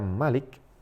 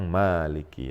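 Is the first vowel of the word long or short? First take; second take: short; long. First: The first vowel is kept short. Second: The first vowel is drawn out long. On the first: It means the ruler. "dengan dibaca pendek" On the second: It means the owner who holds authority. "dia dibaca panjang"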